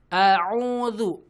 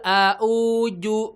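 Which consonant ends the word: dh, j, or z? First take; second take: dh; j. First: The word ends with a dh sound. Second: The word ends with a j sound. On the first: The speaker calls it right. "Pastikan hamzah ain zal" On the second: The speaker calls it wrong. "dua-duanya hamzah dan ujungnya pakai jim"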